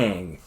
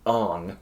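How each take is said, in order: First: The name's vowel sounds like the one in 'ant'. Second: The name's vowel sounds like the one in 'on'. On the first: This is how the name is said in the show. The speaker calls it right. "His name is Aang" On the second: This is how the movie changed the name. The speaker calls it wrong. "his name was Ong"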